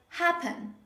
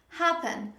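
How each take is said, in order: The two takes are said the same way.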